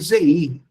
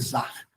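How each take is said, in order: First: The word is said with an 'e' vowel. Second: The word is said with an 'a' vowel. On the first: Read by someone who knows Hebrew; it means crown. The speaker calls it right. "quem lê conhecendo o hebraico vai ler Zeir" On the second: Read without knowing Hebrew or the tradition. The speaker calls it wrong. "eu for ler como quem não conhece a tradição judaica"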